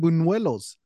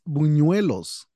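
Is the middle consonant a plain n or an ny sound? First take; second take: n; ny. First: The middle consonant is a plain n sound. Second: The middle consonant is an ny sound. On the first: The speaker calls it wrong. "you're saying buñuelos" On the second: The speaker calls it right. "It's buñuelos"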